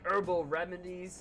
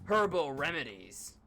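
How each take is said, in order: First: The H at the start is silent. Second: The H at the start is pronounced. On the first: The speaker calls it wrong. "America's the only one who pronounces the word er, uh, herb as with a silent H" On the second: The speaker calls it right. "I have to call it herbal"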